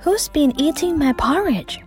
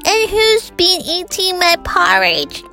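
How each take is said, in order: First: It is said in a soft voice. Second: It is said in a squeaky voice.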